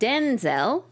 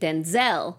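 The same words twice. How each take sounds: First: The stress is on the first syllable. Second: The stress is on the second syllable.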